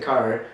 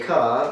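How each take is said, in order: First: The final r is clearly pronounced. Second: The final r is not pronounced. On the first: "Americans say car, so you have the r there" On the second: "I say car"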